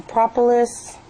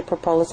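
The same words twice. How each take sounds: First: "Propolis" stressed on the first syllable, PRAH-puh-lis; corrected pronunciation. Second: "propolis" stressed on the middle, pruh-POH-lis; wrong pronunciation. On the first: Reviewer apologizing to Sarah for mispronouncing the salve's name, corrected pronunciation. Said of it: "I always say it wrong". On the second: Reviewer showing how she says the salve's name, wrong pronunciation. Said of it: "I know it's wrong". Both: Shown as a demonstration.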